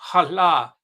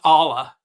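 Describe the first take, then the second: First: It is said in a careful Arabic way. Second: It is said in a casual English way. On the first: The speaker calls it right. "there's a way of saying it properly" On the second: The speaker calls it wrong. "not Allah"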